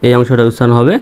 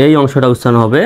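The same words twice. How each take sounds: The two takes are said the same way.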